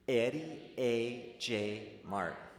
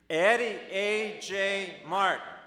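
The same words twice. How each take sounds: First: It is said calmly at normal volume. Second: It is said a bit louder, with more energy.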